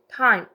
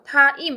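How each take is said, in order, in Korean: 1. 모음이 한 음절 안에서 미끄러지듯 이어져요. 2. 모음이 두 음절로 나뉘어요. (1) "이중모음 한 번 읽어주셔야 돼요" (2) "이렇게 이음절이 아니고"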